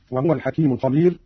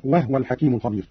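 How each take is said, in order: First: Said in the usual way. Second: وهو with no vowel on the ha, "wah-wa"; silent-vowel ha. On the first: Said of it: "قرأ قالون بإسكان الهاء". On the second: Shown as a demonstration. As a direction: close the ha of وهو straight after the waw. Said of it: "قرأ قالون بإسكان الهاء هكذا". (وهو بإسكان الهاء)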